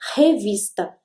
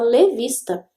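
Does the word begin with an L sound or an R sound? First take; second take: R sound; L sound. First: The word begins with an R sound. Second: The word begins with an L sound. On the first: The speaker calls it right. "ele não falava revista" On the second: The speaker calls it wrong. "ele falava levista"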